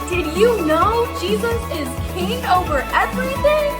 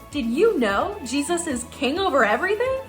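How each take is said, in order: First: It is shouted very loudly. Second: It is said at a normal speaking volume.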